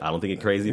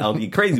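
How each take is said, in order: First: The stress falls on the word I. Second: The stress falls on the word crazy. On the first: Someone else might think you are crazy. "but somebody else might" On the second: You might be some other things instead. "but you might be some other things"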